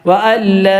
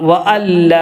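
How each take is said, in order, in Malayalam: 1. n പൂർണ്ണമായി ഇരട്ട l-ൽ ലയിക്കുന്നു. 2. n പൂർണ്ണമായി ഇരട്ട l-ൽ ലയിക്കുന്നു.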